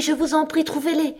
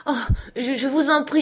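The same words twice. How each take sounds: First: Desperate plea. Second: High, louder stammering plea; pained plea. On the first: Cousin begging her cousin for money, higher desperate plea. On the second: Cousin begging her cousin for money, pained stammering plea. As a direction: beg through the pain, stumbling. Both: A narrator's reading. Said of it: "poussa une sorte de cri de souffrance".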